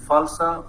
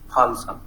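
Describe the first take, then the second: First: The word begins with an f sound. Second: The word begins with an aspirated p sound. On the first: "replace it with ph" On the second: "replace it with ph"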